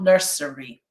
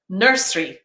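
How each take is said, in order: First: Every syllable is fully pronounced. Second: A middle vowel sound is dropped. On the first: The speaker calls it wrong. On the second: The speaker calls it right. "examples of elision"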